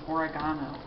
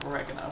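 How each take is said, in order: First: It is said the British way. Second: It is said in the speaker's usual American way.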